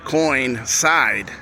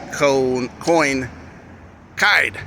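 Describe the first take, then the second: First: The C is said with an S sound. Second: The C is said with a hard K sound. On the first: "but it's an S sound" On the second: "When it should be coin, coin, kide. C sound"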